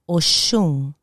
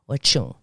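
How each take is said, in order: First: The middle consonant is a 'sh' sound. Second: The middle consonant is a 'ch' sound.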